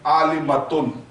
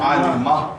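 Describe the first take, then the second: First: The word ends with a full 'tun' sound. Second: The word ends with an open 'a' sound. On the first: "ता को अगर आप जबरदस्त लगाते हैं" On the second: "अगर इसको कहीं रुकना है तो कैसा पढ़ना है?"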